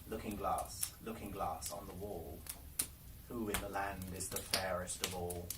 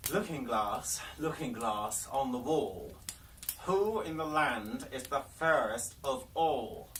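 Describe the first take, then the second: First: Hushed question to mirror. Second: The Queen calls to her mirror, slow and louder; commanding Queen. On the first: The Queen asking her mirror again, hushed and low. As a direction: lower and softer, hushed and expectant. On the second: The Queen to her magic mirror, slow and commanding. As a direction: demand an answer from the glass. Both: Acted.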